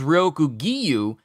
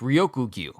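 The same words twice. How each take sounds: First: An extra 'ee' sound separates the G and U. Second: The G and U join with no extra sound. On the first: The speaker calls it wrong. "if it was Ryoku Gyu, then it would have an I next to the uh, G, in between the G and the U" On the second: The speaker calls it right. "but it's Ryoku Gyu"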